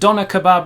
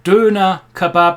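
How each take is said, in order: First: The first vowel is a plain English o sound. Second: The first vowel is a rounded front ö sound.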